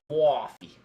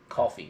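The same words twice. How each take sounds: First: The word is drawn out, with stretched vowels. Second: The word is said short, without dragging the vowels.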